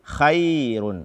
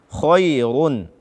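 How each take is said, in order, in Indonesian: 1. Bunyi kh itu tipis dan ringan. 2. Bunyi kh itu tebal dan berat.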